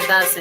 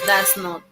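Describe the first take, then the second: First: It is said as one contracted word. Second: It is said as two full words. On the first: "en su forma corta" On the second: "En su forma larga"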